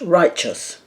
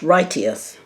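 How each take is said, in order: First: It is said in the usual way. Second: It is said the way it is spelled. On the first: The speaker calls it right. "The word was pronounced righteous" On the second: The speaker calls it wrong. "it looks like it should be pronounced righteous"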